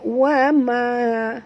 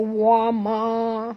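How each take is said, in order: First: The vowel is said thin and light. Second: The vowel is said thick and full. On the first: The speaker calls it right. "tipis dia" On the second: The speaker calls it wrong. "jangan baca wa ma"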